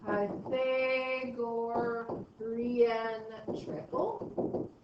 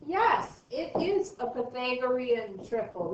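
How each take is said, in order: First: Slow "Pythagorean", pause, questioning upswing on "triple". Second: Emphatic "Yes", then "Pythagorean triple" stated as a sure answer with a falling end; confirming "Yes" punched, "triple" coming down firmly; exclamation. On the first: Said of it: "I say it like a question". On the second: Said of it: "We can even put an exclamation behind it". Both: Shown as a demonstration.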